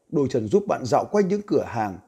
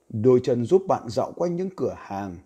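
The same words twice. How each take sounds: First: It is read about twenty percent faster. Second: It is read at a normal pace.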